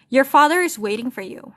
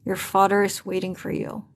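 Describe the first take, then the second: First: A touch of clenched anger, a bit higher and louder; reading the line with mild held-back anger; said through teeth. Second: Lightly demoed teeth-clenched mutter; through clenched teeth. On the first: A narrator's reading. Reading Edward's warning to Bella, mild clenched anger. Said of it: "he said through his teeth". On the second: Shown as a demonstration. Teacher demonstrates speaking through teeth, lightly done. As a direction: show the class how words sound through clenched teeth. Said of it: "Jadi dia ngomongnya tuh kayak".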